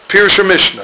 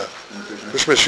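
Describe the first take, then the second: First: Said in the usual way. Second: "Pirush Mishnah" said lower, softer and slower, with a questioning rise at the end; lower, soft checking. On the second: Shown as a demonstration. Teacher checking students found the book, low soft questioning. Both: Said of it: "you see it?".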